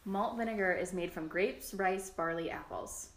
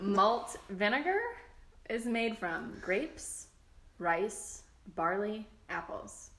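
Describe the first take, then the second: First: It is read at a quicker, normal pace. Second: It is read at a slower pace.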